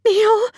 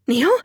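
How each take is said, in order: First: Very high, loud anguished cry; desperate cry, pitch shooting up; sobbed cry. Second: High, loud gasped question; sudden rising cry of alarm; startled gasp. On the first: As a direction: sob the name out desperately. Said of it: "I sobbed out his name". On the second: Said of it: "I gasped". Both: A narrator's reading.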